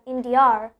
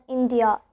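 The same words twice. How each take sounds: First: "India" with an R added at the end; intrusive R. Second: Said in the usual way. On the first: Shown as a demonstration. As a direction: finish "India" on an R sound. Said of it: "pronounce it as India". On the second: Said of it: "Don't pronounce it as India".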